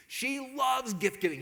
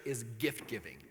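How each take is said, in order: First: Loves drawn out, higher and slow; stress on loves. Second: Said in the usual way. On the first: Shown as a demonstration. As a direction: lean hard on loves, slowly. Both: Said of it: "off the charts".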